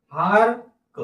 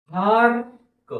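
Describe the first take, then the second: First: Said in the usual way. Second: hark stretched out slowly, sound by sound; slow blending. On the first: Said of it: "शब्द तसा पटकन वाचायला पाहिजे". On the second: Shown as a demonstration. Teacher blending a word slowly for pupils. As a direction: draw out hark for the class. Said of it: "हळूहळू सावकाश म्हणून दाखवत आहे".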